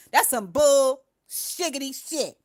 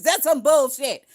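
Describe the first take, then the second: First: Slower, silly stretched "shiggity"; playful drawn-out scoff. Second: Loud scoffing dismissal; scoffing outburst. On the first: Streamer replays her own line as a slow silly joke. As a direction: savor "bull shiggity shit" slowly, mocking. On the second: Streamer scoffs at the news, loud and disgusted. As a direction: spit it out in disgust. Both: Real, not acted.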